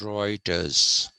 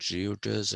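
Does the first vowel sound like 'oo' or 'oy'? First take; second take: oy; oo. First: The first vowel sounds like 'oy'. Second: The first vowel sounds like 'oo'. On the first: The speaker calls it right. "when you write E U together, it is pronounced oi" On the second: The speaker calls it wrong. "It's not Reuters"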